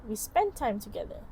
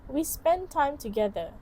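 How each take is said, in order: Both takes have the same delivery.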